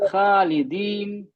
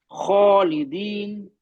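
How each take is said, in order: First: खालिदीन slow with a light, flat खा, tongue down. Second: खालिदीन very slow, tongue root raised on खा; heavy kh. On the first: Teacher demonstrating the wrong light reading, slow. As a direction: read खालिदीन thin, tongue not raised. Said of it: "तो light हो गया". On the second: Teacher asks class to listen closely, heavy and slow. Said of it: "ध्यान से मेरी आवाज सुनिए". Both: Shown as a demonstration.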